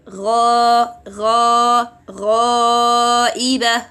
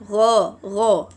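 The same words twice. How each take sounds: First: "ghaiba" with a thick, heavy gha. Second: "gha" thin without raising the tongue; "gha" said light and flat. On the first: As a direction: raise the back of the tongue on "ghaiba". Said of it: "some people may do that". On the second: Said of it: "They do not elevate". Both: Shown as a demonstration.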